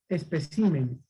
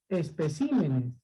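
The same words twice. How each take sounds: No difference in how they are said.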